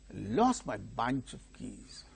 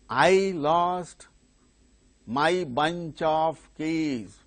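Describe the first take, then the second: First: The word 'my' is unstressed. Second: The word 'my' is stressed. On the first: The speaker calls it right. "My and of are not stressed" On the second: The speaker calls it wrong. "No, that's not the way of either reading or speaking"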